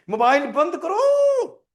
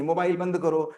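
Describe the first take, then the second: First: Higher, louder, slow yelling command; angry parent shout. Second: Said in the usual way. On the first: Shown as a demonstration. Parent yelling at child to switch off the phone, loud slow shout. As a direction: bark it at the child like a furious parent. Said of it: "tone में।". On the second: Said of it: "देखो दम कहां लग रही?".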